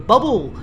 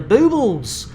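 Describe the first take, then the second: First: The first vowel sounds like 'uh'. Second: The first vowel sounds like 'oo'. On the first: The speaker calls it wrong. "a lot of people mispronounce it as the bubble" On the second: The speaker calls it right. "we are firmly, firmly inside the boobles"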